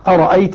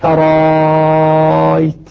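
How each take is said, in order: First: Both glottal stops are pronounced fully. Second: The second glottal stop becomes a very long vowel. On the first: "والباقون بهمزتين" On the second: "إبدالها ألفا ... مع المد المشبع ست حركات"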